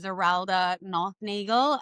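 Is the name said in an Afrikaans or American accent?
American. The name is said with an American accent. "Americans would go"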